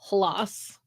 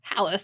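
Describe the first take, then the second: First: The name is said with a Norwegian pronunciation. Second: The name is said with an American pronunciation. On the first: "the official like Norwegian pronunciation is Hlas" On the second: "I say Hallis because I'm a lazy American"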